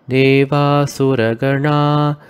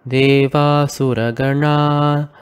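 The two takes are said the same way.

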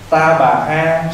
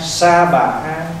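First: The first syllable begins with a t sound. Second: The first syllable begins with an s sound. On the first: "Ta bà ha có khi đọc là gì?" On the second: "nếu mà nói là âm chuẩn nữa đó là sa bà ha"

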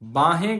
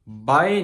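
First: The word has a clear h sound. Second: The word has no h sound. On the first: The speaker calls it right. "ਬਾਹੇ ਕਹਿਣਾ ਆ" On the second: The speaker calls it wrong. "ਬਾਏ ਨਹੀਂ ਕਹਿਣਾ"

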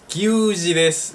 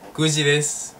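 First: The first syllable is said as kyu. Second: The first syllable is said as plain ku. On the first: The speaker calls it wrong. "No, se dice kuji" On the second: The speaker calls it right. "se dice kuji"

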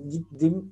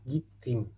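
First: The second syllable starts with a d sound. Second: The second syllable starts with a t sound. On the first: The speaker calls it wrong. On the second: The speaker calls it right.

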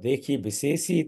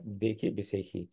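First: The last word has an s sound before the end. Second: The last word has a kh sound before the end. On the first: It breaks the rhyme, so the verse is lost. The speaker calls it wrong. "उसकी कविता नहीं बनती है" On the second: It rhymes with the other half of the verse. The speaker calls it right. "देखी बिसे तुक right"

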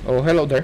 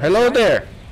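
First: It is said in his normal voice. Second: It is said imitating Obi-Wan Kenobi.

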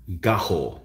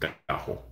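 First: The name is not pronounced the Spanish way. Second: The name is pronounced the Spanish way. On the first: "That's how I would say it" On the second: "That sounds like it's a Spanish word, so I would pronounce it gajo"

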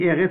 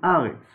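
First: The first vowel is an 'e' sound. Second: The first vowel is an 'a' sound. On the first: The word stands at the start of a verse. "Si c'est au début du Pasuk, on dit Eretz avec Segol" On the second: The word stands at the end of a verse. "Si c'est à la fin du Pasuk, on ne dit pas Eretz, on dit Aretz avec Patach"

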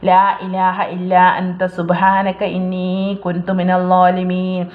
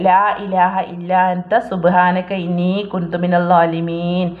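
No difference in how they are said.

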